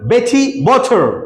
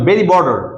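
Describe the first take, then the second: First: The t is a crisp, clear t. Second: The t sounds like a soft d. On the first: "ব্রিটিশে বলবে" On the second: "এটা আমেরিকানরা বলবে"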